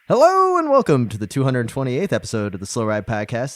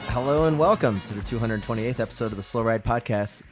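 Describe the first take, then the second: First: It is said with more energy. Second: It is said with low energy.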